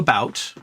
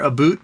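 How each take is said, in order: First: It is said with an American vowel. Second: It is said with a Canadian vowel. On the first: "to about. They do a good job with that" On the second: "They'll change their about"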